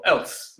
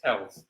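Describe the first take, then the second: First: "else" ending in a hissed s, not z; alternative pronunciation. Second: Said in the usual way. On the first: Shown as a demonstration. Quiz host guessing at a local pronunciation, "else" with final s. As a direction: say "else" with a voiceless s at the end. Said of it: "Maybe it's pronounced else in this country". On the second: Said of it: "Maybe it's pronounced else".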